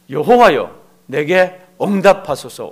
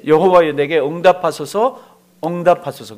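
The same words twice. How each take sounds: First: Louder, slow solemn plea; Elijah's prayer slowly. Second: Louder, earnest plea; Elijah's prayer. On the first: Elijah on Carmel praying, slow loud solemn invocation. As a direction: call the name slowly and loudly. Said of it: "짧아요". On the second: Elijah calling on the LORD, a loud fervent plea. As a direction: cry out to God with fervour. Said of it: "그렇게 돼 있죠". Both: Retold or imitated.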